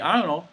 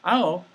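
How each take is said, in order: First: The words are slurred into one sound. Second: The words are slurred into one sound.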